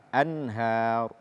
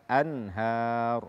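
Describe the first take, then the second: No difference in how they are said.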